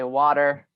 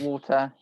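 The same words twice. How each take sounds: First: The word is said with an American accent. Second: The word is said with a British accent.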